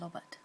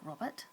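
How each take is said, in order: First: The first sound is an L. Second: The first sound is an R. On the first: The speaker calls it wrong. "pronounce the R sound like a L" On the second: The speaker calls it right. "make sure you curl your tongue back"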